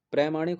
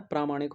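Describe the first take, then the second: First: प्रामाणिक said as pre-maanik; wrong short vowel. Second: प्रामाणिक with a long 'praa'; correct long vowel. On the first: (प्रामाणिक को 'प्रमाणिक' बोलकर) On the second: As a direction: say प्रामाणिक as praa-maanik. (प्रामाणिक, शुरू में लंबा 'प्रा') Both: Shown as a demonstration. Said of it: "प्रामाणिक होता है".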